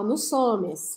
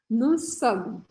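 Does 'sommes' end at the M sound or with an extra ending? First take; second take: extra ending; at M. First: The word 'sommes' carries an extra sounded ending. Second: The word 'sommes' stops right at the M sound. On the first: The speaker calls it wrong. "a vontade é você falar nous sommes. Não" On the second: The speaker calls it right. "Precisa parar o som nesse M"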